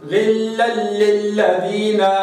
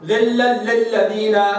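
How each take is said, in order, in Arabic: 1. تُقرأ بسرعة معتدلة. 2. تُقرأ بسرعة. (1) "أقرأ تجويل هكذا" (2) "أقرأ حذر"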